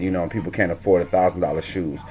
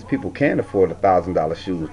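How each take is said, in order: First: Said in the usual way. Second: Can held long and firm, correcting herself; stress on can. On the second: Shown as a demonstration. Commenter correcting a reality star: people can afford, stressed. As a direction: lean hard on can. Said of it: "But the truth of the fact is".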